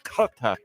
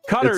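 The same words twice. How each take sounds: First: It starts with a sound deep in the throat. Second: It is said with a plain American pronunciation. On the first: It imitates how people who live there say it. "almost have to like say it from the throat" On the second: It is adapted to American English. "probably closer if you're going to just straight Americanize it"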